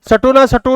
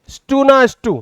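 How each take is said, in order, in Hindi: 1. s और t के बीच एक स्वर डाला जाता है। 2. s और t एक गुच्छे की तरह जुड़े होते हैं। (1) "सटुना सटु नहीं है वो भाई"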